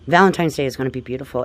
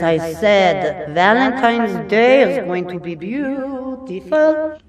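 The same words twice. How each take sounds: First: Said in the usual way. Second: Higher and slow, stretching every word grandly; playful drawn-out announcement. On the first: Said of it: "play around for a moment". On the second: Pretend. Astrologer teasing her viewers, slow and grandly playful. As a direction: ham it up like a big proclamation. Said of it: "I just had to play around for a moment".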